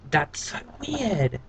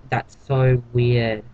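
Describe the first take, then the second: First: Slow, hushed, higher That's so weird; softer weirded-out. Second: Slow, stretched "so" in That's so weird; drawn-out so weird. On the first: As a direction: murmur it, half to yourself, disturbed. Repeats reaction more quietly. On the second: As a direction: draw out "so" in disbelief. Reacting twice to weird scene. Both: Real, not acted.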